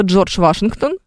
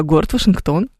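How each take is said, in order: First: "Вашингтон" stressed on the first syllable ВА; surname stress. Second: "Вашингтон" stressed on the final syllable ТОН; city stress. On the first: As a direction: hit ВА in "Вашингтон". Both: Shown as a demonstration. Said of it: "пожалуйста".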